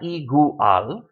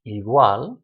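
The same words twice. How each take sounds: First: Igual wrongly split as i-gu-al; "igual" slowly, with gu and al as separate syllables; three syllables. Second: Igual as i-GWAL, u and a mushed together; "igual" with a single gliding wa sound; two syllables. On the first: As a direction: pull igual apart slowly, sounding u and a separately. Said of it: "It's not igual". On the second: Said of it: "only two syllables". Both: Shown as a demonstration.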